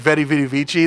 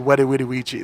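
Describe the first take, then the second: First: The words begin with a V sound. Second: The words begin with a W sound. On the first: The speaker calls it wrong. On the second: The speaker calls it right.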